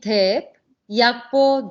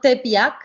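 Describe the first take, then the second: First: A clear break separates the two words. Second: The words run together without a break. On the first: The speaker calls it right. "you have to really separate tep and yakpo" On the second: The speaker calls it wrong. "not tep yak"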